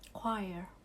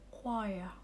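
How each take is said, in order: First: The word is said in an American accent. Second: The word is said in a British accent. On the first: "Tapi kalau American kita bilangnya choir" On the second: "Kalau British accent mereka bilang choir"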